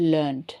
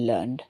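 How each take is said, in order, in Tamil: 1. இந்த வார்த்தை t ஒலியில் முடிகிறது. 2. இந்த வார்த்தை d ஒலியில் முடிகிறது. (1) "பிரிட்டிஷ் இங்கிலீஷில் சொல்லுவோம்" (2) "அமெரிக்கன் இங்கிலீஷில்"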